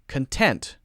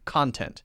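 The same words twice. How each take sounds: First: The stress is on the second syllable. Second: The stress is on the first syllable. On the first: It means feeling satisfied. "with the adjective, we're stressing syllable two" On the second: It names material you read, watch or listen to. "we're stressing syllable one"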